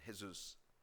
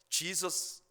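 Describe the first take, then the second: First: The name begins with an H sound. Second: The name begins with a J sound. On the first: "스페니쉬로 발음을 하면 헤수스가 됩니다" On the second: "이 Jesus라고 하는 영어 이름"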